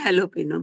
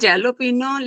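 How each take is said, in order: First: The word begins with an H sound. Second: The word begins with a J sound. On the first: The speaker calls it right. "उच्चारण में हेलो पिनो बोलते हैं" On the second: The speaker calls it wrong. "Spanish में जेलो पिनो लिखते हैं"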